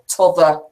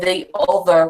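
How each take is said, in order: First: The word 'the' is cut to a t-sound. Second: The word 'the' is said in full. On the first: This is the local dialect form. "we say t'other" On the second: This is the standard form. "we don't say the other"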